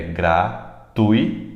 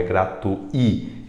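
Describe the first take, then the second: First: Gratuito slowly, syllable by syllable, TUI strongest; stress on TUI. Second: Gratui slowly split as gra-tu-Í; stress on separated I. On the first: Teacher giving the correct form, stress on TUI in gratuito. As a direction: sound out gra-TUI-to slowly. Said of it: "A sílaba mais forte é o tui". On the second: Teacher rejecting the split vowel, stress on I in gratui. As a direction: say gra-tu-I, final I strongest. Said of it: "Não é gratui". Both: Shown as a demonstration.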